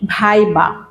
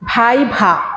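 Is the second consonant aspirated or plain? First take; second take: plain; aspirated. First: The second consonant is a plain b sound. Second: The second consonant is a breathy bh sound. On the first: The speaker calls it wrong. "বেশিরভাগ স্টুডেন্টরা বলে ভাই বা, আসলে ভাই বা নয়" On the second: The speaker calls it right. "দুইটাই ভ। ... দম নিয়ে বলবে তখন শুদ্ধ উচ্চারণ হবে"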